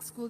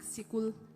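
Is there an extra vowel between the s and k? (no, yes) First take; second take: no; yes. First: It starts with a tight s-k cluster. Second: A vowel splits the s and k sounds. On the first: "they don't even pronounce it like school" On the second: "They used to pronounce like sikul"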